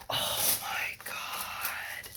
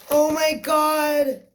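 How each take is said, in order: First: Breathless tearful whisper; slow stunned whisper; awed whisper. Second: High, loud and slow with disbelief; real thrilled cry; excited shriek. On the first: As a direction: barely breathe it out, close to tears. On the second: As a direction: let the joy burst out loud. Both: Real, not acted. Overwhelmed unboxing a wished-for palette.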